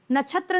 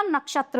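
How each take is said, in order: First: नक्षत्र with "chh" for "क्ष"; higher नक्षत्र said as "nachhatra"; wrong pronunciation. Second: नक्षत्र with a full "ksh"; correct pronunciation. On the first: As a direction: swap the "ksh" in नक्षत्र for "chh". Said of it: "नक्षत्र नहीं होता". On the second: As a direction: sound both k and sh in नक्षत्र. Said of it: "नक्षत्र होता है". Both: Shown as a demonstration.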